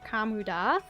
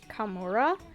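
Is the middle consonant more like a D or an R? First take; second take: D; R. First: The middle consonant sounds almost like a D. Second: The middle consonant is a clear R. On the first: This is how it sounds in the song. "it sounds like they're saying Kamuda, like almost like a D sound" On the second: This is how English voice actors say it. "they say Kamura"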